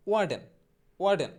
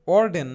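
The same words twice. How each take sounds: First: ওয়ার্ডেন starting "waa", the r left silent; corrected pronunciation. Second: Said in the usual way. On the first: Shown as a demonstration. Teacher modelling warden for learners, ওয়ার্ডেন as "waa-den". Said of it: "ওয়ার্ডেন না". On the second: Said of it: "মোটেও".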